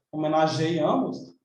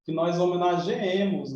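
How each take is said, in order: First: "Homenageamos" slow, with stressed A; questioned form. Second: "homenageemos" with a doubled, stressed E; corrected form. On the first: Teacher asking how you say it, slow questioning "Homenageamos". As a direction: query "Homenageamos" slowly, as if testing it. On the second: Teacher giving the subjunctive answer, stressed "homenageemos". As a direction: say "homenageemos" with ge-E, no i glide. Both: Shown as a demonstration. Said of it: "como é que você fala?".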